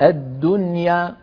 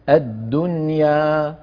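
First: The final vowel is cut short like a fatha. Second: The final vowel is held for two counts. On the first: The speaker calls it wrong. "أنت قلت الدنيا، هذه فتحة" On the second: The speaker calls it right. "الدنيا يا حركتين"

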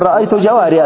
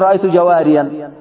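First: The last word ends without an 'n' sound. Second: The last word ends with an 'n' sound. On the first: The speaker calls it right. "تقول رأيت جواريا" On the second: The speaker calls it wrong. "لا تقول رأيت جواريا"

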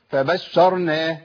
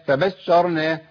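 Both takes have the same delivery.

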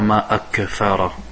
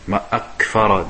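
First: The k sound has an added echoing bounce. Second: The k sound stops cleanly without a bounce. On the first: The speaker calls it wrong. "tu ne dis pas" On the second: The speaker calls it right.

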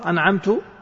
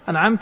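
First: The word ends with a final -tu sound. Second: The word ends with a final -ta sound. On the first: The blessing is given by the speaker. The speaker calls it wrong. "أنعمت يعني أنا" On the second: The blessing is given by the one addressed. The speaker calls it right. "أنعمت يعني أنت يا الله"

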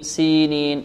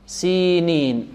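First: The long vowel after the S sounds natural. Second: The long vowel after the S is heavily exaggerated. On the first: The speaker calls it right. "المتمرس ينطق هكذا" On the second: The speaker calls it wrong. "المبتدئ يركز عليها ويركز على أن هناك ياء مدية بعد السين"

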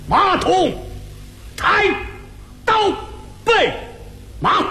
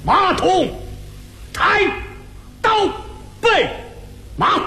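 First: It is recited in a hard Beijing opera accent. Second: The same.

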